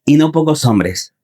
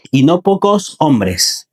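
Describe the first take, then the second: First: Said in the usual way. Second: Drawn-out emphatic "no pocos"; slow emphasis. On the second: Real, not acted. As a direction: stretch out "pocos", slow and weighty. Preacher repeats phrase for emphasis.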